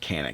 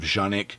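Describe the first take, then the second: First: The word begins with a hard K sound. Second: The word begins with a soft J sound. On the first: This is how the importer says the name. "they call it Canik" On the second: This is how it is said in the maker's own language. "the proper language, it is supposed to be more along the lines of Janik"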